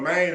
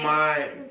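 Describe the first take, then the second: First: The word is said with a Memphis accent. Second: The word is said with an exaggerated country drawl. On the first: This is how locals say it. The speaker calls it right. "Maine is our thing" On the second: This is how a movie portrayed locals. The speaker calls it wrong. "he was so country and mine"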